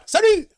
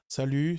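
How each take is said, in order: First: It is said lively with varied pitch movement. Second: It is said flatly with little pitch movement. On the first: It sounds engaging. The speaker calls it right. "Il y a des, int- des inflexions dans ma voix" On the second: It sounds stern. The speaker calls it wrong. "je ne parle pas comme ça"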